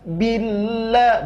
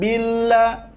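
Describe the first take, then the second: First: The doubled L is pressed with emphasis. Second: The doubled L is said lightly, without emphasis. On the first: The speaker calls it right. "harus ada penekanan suara atau nabroh namanya" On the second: The speaker calls it wrong. "bukan billah, enggak"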